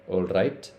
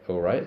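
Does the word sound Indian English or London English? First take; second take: Indian; London. First: It is said in an Indian English accent. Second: It is said in a London accent, glottal T. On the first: "in the Indian accent, alright is pronounced all right" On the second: "the London accent will be all right, So it's a glottal stop T at the end"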